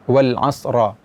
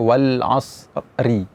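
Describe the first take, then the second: First: The final r is followed by an a vowel. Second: The final r is followed by an i vowel. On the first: "tidak demikian" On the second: "Misalnya wal asri"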